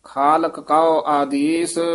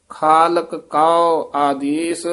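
First: Said in the usual way. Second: Slow ਖਾਲਕ ਕਉ, both ਕ crisp; clear ਕ sounds. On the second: Shown as a demonstration. Teacher showing the two ਕ sounds slowly. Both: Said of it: "ਦੋਵੇਂ ਕੱਕੇ ਸ਼ੁੱਧ ਉਚਾਰਨ".

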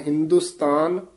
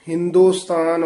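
First: ਹਿੰਦੁਸਤਾਨ with short u, as hin-dus-tan; short u vowel. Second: ਹਿੰਦੁਸਤਾਨ said with a long o, as hin-do-stan; o vowel. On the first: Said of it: "ਔਂਕੜ ਦੇ ਨਾਲ". (ਹਿੰਦੁਸਤਾਨ ਔਂਕੜ ਨਾਲ) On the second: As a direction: put an o after the d in ਹਿੰਦੁਸਤਾਨ. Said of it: "ਹੋੜਾ ਲਾ ਕੇ ਨਹੀਂ ਬੋਲਣਾ". (ਹਿੰਦੁਸਤਾਨ ਹੋੜੇ ਨਾਲ) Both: Shown as a demonstration.

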